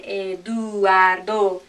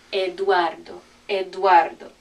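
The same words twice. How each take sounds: First: Eduardo broken into "eh-doo-AR-do"; split diphthong. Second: Eduardo as "ed-WAR-do"; joined diphthong. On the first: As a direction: draw out each vowel of Eduardo separately, slowly. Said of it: "example of a diphthong". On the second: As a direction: glide u and a together in Eduardo. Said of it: "Those go together". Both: Shown as a demonstration.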